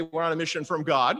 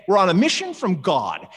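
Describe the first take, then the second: First: Said in the usual way. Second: Loud, punchy declaration of a mission; emphatic declaration. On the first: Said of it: "when they say". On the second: Retold or imitated. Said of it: "they just say it emphatically".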